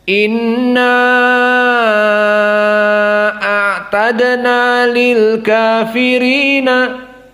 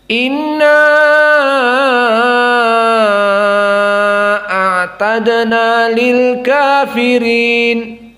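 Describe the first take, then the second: First: The vowel after inna is held moderately long. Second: The vowel after inna is held very long. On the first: This is the reading of the majority of reciters. "dibaca empat sampai lima" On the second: This is the reading of Warsh and Hamzah. "maka dibaca panjang lagi"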